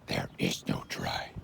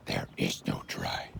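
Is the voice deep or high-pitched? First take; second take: deep; deep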